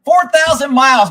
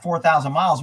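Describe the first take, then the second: First: Four thousand miles hit higher and louder, four punched; indignant, louder on Four; outraged stress. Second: Said in the usual way. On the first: Real, not acted. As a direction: punch the word Four with disbelief. Repeats mileage indignantly.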